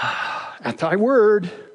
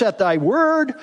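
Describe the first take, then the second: First: It is said with a sigh, sounding exasperated. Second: It is read in a plain, neutral tone.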